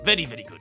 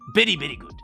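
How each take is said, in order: First: The word very begins with a V sound. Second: The word very begins with a B sound. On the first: The speaker has practised English a long time. The speaker calls it right. "some people who have been practicing English long enough might be able to say" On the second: The speaker is not good at English. The speaker calls it wrong. "for the people who aren't very good at English will say"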